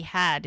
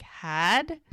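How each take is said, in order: First: Said in the usual way. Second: HAD lifted into a question; questioning echo. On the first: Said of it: "Mel catches the "had". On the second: Retold or imitated. Mel catches Doc's past tense, questioning echo on HAD. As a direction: echo HAD back with a rising, querying tone. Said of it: "and she's like".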